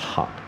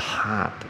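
First: The vowel is said lightly and relaxed. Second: The vowel is exaggerated and pressed into the throat. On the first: The speaker calls it right. "所以我们念轻松一点" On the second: The speaker calls it wrong. "这个就是夸张了"

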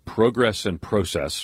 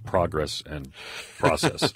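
First: It is said in a British accent. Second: It is said in an American accent.

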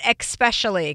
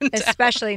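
First: The word begins with an 'ex' sound. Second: The word begins with an 'es' sound. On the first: The speaker calls it wrong. "not especially" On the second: The speaker calls it right. "they do not have X's in them, that they are S's"

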